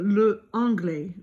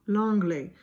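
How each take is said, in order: First: The article le is said fully before anglais. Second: The article's vowel drops and it joins anglais. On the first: The speaker calls it wrong. "that just doesn't sound good" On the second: The speaker calls it right. "they want l'anglais"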